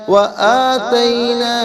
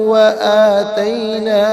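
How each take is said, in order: Both takes have the same delivery.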